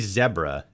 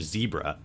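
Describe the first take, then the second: First: The word is said the British English way. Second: The word is said the American English way. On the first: "they say zebra in England" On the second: "instead of zebra"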